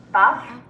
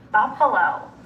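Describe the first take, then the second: First: Buff-a-lo with pauses between all three parts; chopped into syllables. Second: Said in the usual way. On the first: Shown as a demonstration. Teacher segmenting Buff-a-lo with students, chopped into syllables. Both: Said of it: "segment or chop it".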